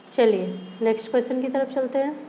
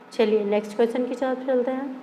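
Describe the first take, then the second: Both takes have the same delivery.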